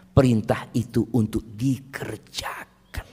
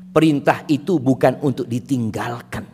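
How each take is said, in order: First: Slow, breathy whisper on "Perintah itu untuk dikerjakan". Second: Said in the usual way. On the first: Shown as a demonstration. Preacher answers his own list of what commands are not, slow whisper. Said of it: "contrasting whispered line".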